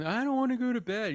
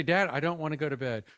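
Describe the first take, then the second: First: High-pitched mock kid whine; mimicked whining. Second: Said in the usual way. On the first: Child that evening refusing bed, mimicked whining. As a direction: imitate a child whining at bedtime. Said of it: "doing that thing called whining". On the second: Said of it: "Let's practice that real quick".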